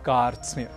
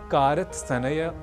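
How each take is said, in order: First: The consonants are joined without any vowel. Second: Vowels break up the consonant cluster. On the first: The speaker calls it right. "हमें कहना है कार्त्स्न्य" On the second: The speaker calls it wrong. "न कहकर"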